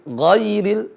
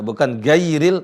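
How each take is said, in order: First: It starts with a raspy, thick throaty gh sound. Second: It starts with a plain hard g sound. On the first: The speaker calls it right. "tapi ghairil" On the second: The speaker calls it wrong.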